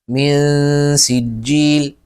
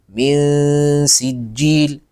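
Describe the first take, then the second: Both takes have the same delivery.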